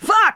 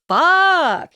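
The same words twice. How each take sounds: First: It is a shocked, exclaimed outburst. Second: It is a quiet, awed reaction to the scene.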